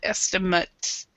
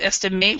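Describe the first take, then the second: First: The last syllable has a reduced schwa vowel. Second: The last syllable has a full vowel. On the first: The speaker calls it right. "this is a schwa sound" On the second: The speaker calls it wrong. "instead of estimate"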